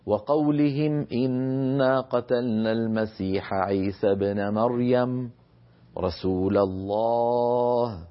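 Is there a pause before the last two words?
yes. There is a pause before the final phrase. The final phrase is God's rebuke of the claimants. "فيكون اللفظ هكذا"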